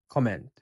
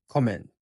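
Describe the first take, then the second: The two takes are said the same way.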